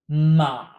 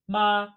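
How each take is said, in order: First: The pitch dips down. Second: The pitch does not dip. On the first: It means horse. "With a dipping tone" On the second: It means mother. "Like mom"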